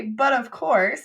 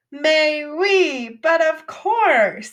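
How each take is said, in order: First: Said in the usual way. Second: Higher, louder, stretched-out "but of course" like a stage Frenchman; hammed-up French mock. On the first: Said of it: "We don't say". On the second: French teacher mocking the English phrase: higher, louder, drawn out. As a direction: ham up the snooty French "mais oui, but of course". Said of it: "So we don't talk like that in English".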